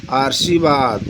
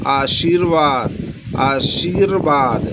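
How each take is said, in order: First: Said in the usual way. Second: आशीर्वाद drawn out slowly, every syllable clear, with र before व; slow careful pronunciation. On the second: Shown as a demonstration. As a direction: sound out आशीर्वाद slowly like a teacher. (आशीर्वाद धीरे-धीरे, हर अक्षर साफ़ बोलिए) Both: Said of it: "जब आप शुद्ध बोलेंगे".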